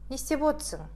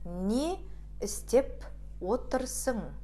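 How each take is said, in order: First: The words are run together and shortened. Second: Each word is said fully and separately. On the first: "а произносим его так" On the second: "Пишется эта фраза так"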